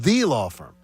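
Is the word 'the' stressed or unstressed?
stressed. The word 'the' is stressed and emphatic. The speaker calls it right. "It is the law firm. Like the Ohio State University"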